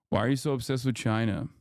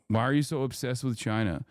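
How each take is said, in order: Both takes have the same delivery.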